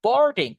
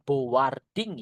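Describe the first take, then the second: First: "Boarding" in two syllables, bor-ding, higher and louder; correct pronunciation. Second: "boarding" misread as bo-war-ding; wrong pronunciation. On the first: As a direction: say "Boarding" with a silent a. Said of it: "kita nggak perlu bilang boarding". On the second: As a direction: sound the silent a in "boarding". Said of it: "kita nggak perlu bilang boarding ya". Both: Shown as a demonstration.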